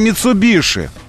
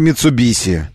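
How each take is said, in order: First: The last syllable is said with an 'sh' sound. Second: The last syllable is said with an 's' sound. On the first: The speaker calls it right. "И мы говорим Митсубиши" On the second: The speaker calls it wrong. "Люди, произносящие следующее"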